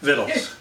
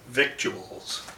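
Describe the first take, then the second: First: The word is said in a folksy hillbilly way. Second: The word is said in a plain reading way.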